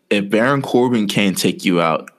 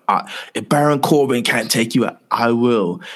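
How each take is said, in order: First: Said in the usual way. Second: Put-on a light Scottish accent on "Baron Corbin can't take you out"; lightly put-on Scottish threat. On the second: McIntyre threatens Kurt Angle, light Scottish accent. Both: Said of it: "You know, in the Scottish accent".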